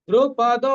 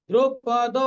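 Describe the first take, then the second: The two takes are said the same way.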